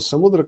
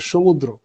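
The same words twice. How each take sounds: First: The word begins with a plain 's' sound. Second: The word begins with an 'sh' sound. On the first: This is how it is said in Sanskrit. "Sanskrit में हम जिसको समुद्र कहते हैं" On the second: This is how it is said in Bengali. "बंगाल में उसको कहेंगे समुद्र"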